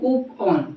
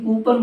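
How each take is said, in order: First: The word ends with a full 'on' sound. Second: The word ends with a weak 'an' sound. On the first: The speaker calls it right. "होता है कूप ऑन" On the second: The speaker calls it wrong. "कूपन word नहीं होता है"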